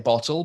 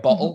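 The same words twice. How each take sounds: First: The t is pronounced as a clear t. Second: The t is replaced by a glottal stop. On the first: The speaker is talking carefully. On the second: The speaker is talking quickly. "I'll do the glottal stop and get rid of the T's"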